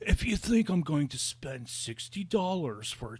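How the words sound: It is said in a laid-back Californian accent. The speaker calls it right. "He should have been like"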